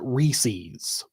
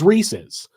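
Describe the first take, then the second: First: It is said the upper East Coast way. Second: It is said the way the company says it. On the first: The speaker calls it wrong. "they call it Reese's, which is which is not the correct pronunciation" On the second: The speaker calls it right. "The correct pronunciation is Reese's"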